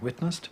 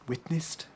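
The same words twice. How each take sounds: First: The second syllable has a reduced, weak vowel. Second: The second syllable has a clear 'i' vowel. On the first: This is the modern pronunciation. "where we might now say witnessed" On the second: This is an old-fashioned pronunciation. "using I in a word like"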